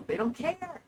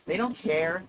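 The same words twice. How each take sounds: First: High, lighter echo of the point; high-pitched repeat. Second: Said in the usual way. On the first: Real, not acted. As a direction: jump way up in pitch. Repeats the line much higher.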